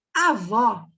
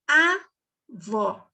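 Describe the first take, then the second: First: Said in the usual way. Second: "avó" with A standing alone, then VÓ; split syllables. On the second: Shown as a demonstration. Teacher showing a one-letter syllable, "avó" split. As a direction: isolate the A in "avó", pause, then VÓ. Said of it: "Eu só falei o A".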